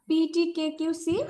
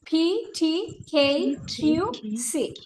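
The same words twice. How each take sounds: First: The letters start without a puff of air. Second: The letters start with a strong puff of air. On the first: "আগে আমরা বলতাম" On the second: "এই pronounce এভাবে করব"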